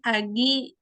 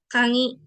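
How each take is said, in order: First: The middle consonant is a hard g sound. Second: The middle consonant is a nasal ng sound. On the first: This is how the word is written. "itu kan kagi" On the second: This is how the word is actually read. "dibacanya kangi"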